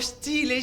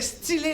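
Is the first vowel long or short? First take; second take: long; short. First: The first vowel is drawn out long. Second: The first vowel is short. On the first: It sounds like being made of steel. The speaker calls it wrong. "non pas stylé. Si tu rallonges" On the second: It means refined or stylish. The speaker calls it right. "il faut dire stylé"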